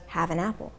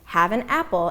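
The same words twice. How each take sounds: First: Apple is linked smoothly to the previous word. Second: Apple starts with a sharp glottal catch.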